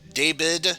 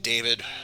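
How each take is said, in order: First: The middle consonant is a B sound. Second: The middle consonant is a V sound. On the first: "you would use a B sound instead" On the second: "names like David"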